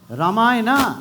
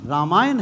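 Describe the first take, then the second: First: The word ends with an added final vowel. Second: The word ends on a consonant, no final vowel. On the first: The speaker calls it wrong. "ये पता नहीं अंग्रेज last में ए कहां से लगा गए" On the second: The speaker calls it right. "रामायण है"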